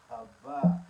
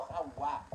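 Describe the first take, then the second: First: "Habá" with a firm B; higher, louder "Habá", B not W; correct pronunciation demo. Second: "Hawá" with a W glide; the rejected "Hawá", W instead of B; wrong pronunciation demo. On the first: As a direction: stretch "Habá" loudly as the correction. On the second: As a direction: say "Hawá" with W, as the mistake. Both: Shown as a demonstration. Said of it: "No Hawá".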